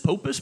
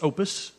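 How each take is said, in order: First: The name begins with a P sound. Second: The name begins with a vowel sound. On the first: The speaker calls it wrong. "is this Popus Management? Nope" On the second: The speaker calls it right. "The P is silent"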